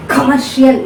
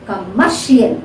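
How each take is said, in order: First: "Commercial" punched on its first syllable, the middle weakened; wrong first-syllable stress. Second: "Commercial" with a short first syllable and a strong "mer"; stress on second syllable. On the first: Teacher demonstrates what not to say, first syllable of "Commercial" wrongly stressed. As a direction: hit "Com" hard at the start of "Commercial". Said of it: "you should not say commercial". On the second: Teacher corrects the wrong version, second syllable of "Commercial" stressed. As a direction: lean on the middle of "Commercial". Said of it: "this has to be stressed".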